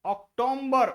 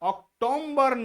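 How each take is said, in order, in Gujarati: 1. B પહેલાં M નો અવાજ ઉમેરાય છે. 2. B પહેલાં M નો અવાજ ઉમેરાય છે.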